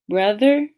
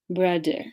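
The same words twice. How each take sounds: First: The middle consonant is a th sound. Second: The middle consonant is a d sound.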